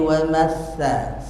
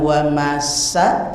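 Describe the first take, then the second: First: The consonant is a th sound, tongue between teeth. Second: The consonant is a plain s sound. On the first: The speaker calls it right. "tapi wa masa" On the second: The speaker calls it wrong. "Bukan wa masa"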